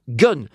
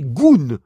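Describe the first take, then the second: First: The vowel is a short 'uh' sound. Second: The vowel is a long 'oo' sound. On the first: The speaker calls it right. "ça se prononce gun" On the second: The speaker calls it wrong. "Ça ne s'est jamais prononcé goon"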